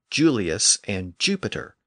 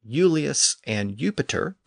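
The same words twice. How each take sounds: First: The names begin with a J sound. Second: The names begin with a Y sound. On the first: This is the later Latin pronunciation. "the Y sound shifted to a J sound" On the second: This is the older Latin pronunciation. "the Y sound shifted to a J sound"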